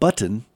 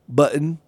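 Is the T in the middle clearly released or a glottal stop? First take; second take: clear T; glottal stop. First: The middle T is clearly pronounced. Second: The middle T becomes a glottal stop. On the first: The speaker calls it right. "not button" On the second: The speaker calls it wrong. "this glottal stop or something going on"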